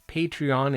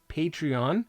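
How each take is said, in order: First: It is said the way its founder says it. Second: The same.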